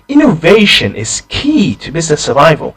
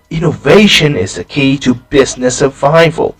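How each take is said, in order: First: The stress falls on innovation and key. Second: The stress falls on business survival. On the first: The topic matters, and it is very important. "I stress the word key because I want to emphasize how important it is. I emphasize the word innovation" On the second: It matters for survival, not just revenue. "why do I emphasize business survival?"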